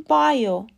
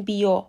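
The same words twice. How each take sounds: First: بایو said ba-yo, stressed; correct pronunciation. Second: بیو said bi-o, the wrong way; wrong pronunciation. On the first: Teacher giving the correct بایو, ba-yo. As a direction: say بایو as ba-yo, not bi-o. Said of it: "باید بگیم بایو". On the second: Teacher showing the wrong بیو, bi-o. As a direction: demo the mistaken بیو, bi-o. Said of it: "نگیم بیو". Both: Shown as a demonstration.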